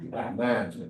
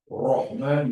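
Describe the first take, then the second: First: The name is said with thin, light sounds. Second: The name is said with thick, deep sounds. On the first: This is the Malay form. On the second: This is the original Arabic form.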